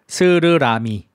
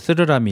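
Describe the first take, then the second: First: The s sounds are crisp, clear hissing sounds. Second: The s sounds are lisped, like a th. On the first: The speaker calls it right. "저는 이거 연습했어요" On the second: The speaker calls it wrong. "옛날에 저도 스르라미 이렇게 했어요"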